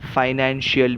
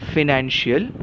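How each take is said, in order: First: The first syllable has a long 'eye' vowel. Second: The first syllable has a short 'i' vowel. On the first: "कुछ कुछ लोग इसका उच्चार फाइनेंशियल भी करते हैं" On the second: "फी"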